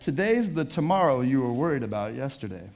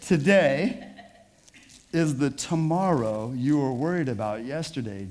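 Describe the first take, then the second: First: The sentence is spoken at a quicker pace. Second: The sentence is spoken at a slower pace.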